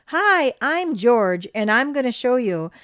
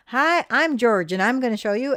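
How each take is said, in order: First: Slow, loud, higher TV host greeting; TV host intro. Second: Put-on town drunk. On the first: Retold or imitated. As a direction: announce it like a show host. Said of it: "he would say". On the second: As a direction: slur it like a drunk. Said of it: "he kinda slurred his speech".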